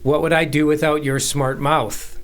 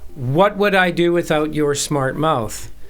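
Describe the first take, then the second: First: The stress is on "mouth". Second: The stress is on "what".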